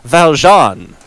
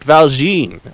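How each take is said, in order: First: The name is said the French way. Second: The name is said an anglicized way. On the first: The speaker calls it right. "it is pronounced Valjean ... because Les Miserables" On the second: The speaker calls it wrong. "not Valjean"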